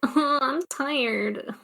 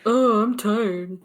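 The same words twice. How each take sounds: First: It is said in a light, unmanly voice. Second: It is said in a deep, manly voice.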